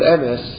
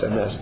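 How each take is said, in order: First: The stress is on the first syllable. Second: The stress is on the last syllable. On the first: The speaker calls it wrong. "The way people pronounce the word MS is incorrect" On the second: The speaker calls it right. "It's MS"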